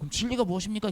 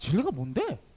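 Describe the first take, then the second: First: It is asked as a sincere, respectful question. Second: It is asked in a mocking, sarcastic tone.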